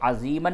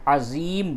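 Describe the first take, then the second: First: The word ends with a short a and n. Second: The word ends on m with no vowel. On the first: "अज़ीमन नहीं बोलेंगे" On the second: "बहुत से लोग यहाँ पे गलती क्या करते हैं कि इसको अज़ीम बोल देते हैं"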